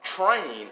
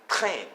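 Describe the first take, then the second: First: Said in the usual way. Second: Slow "train" with a gargled R and French nasal ending; French pronunciation. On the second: Shown as a demonstration. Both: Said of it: "Train in French is train".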